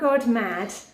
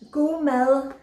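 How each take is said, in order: First: The phrase is read as spelled, ending 'mad'. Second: The phrase is said as 'go mel', softened ending. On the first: The speaker calls it wrong. "this book is not" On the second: The speaker calls it right. "It actually means"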